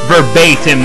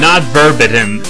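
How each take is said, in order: First: The middle vowel is an 'ay' sound. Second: The middle vowel is not an 'ay' sound. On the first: The speaker calls it right. "the word verbatim is pronounced, well, verbatim" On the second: The speaker calls it wrong. "like I pronounced it uh, in the first video"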